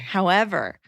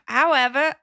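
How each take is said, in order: First: It is said in her own accent. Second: It is said in a British accent.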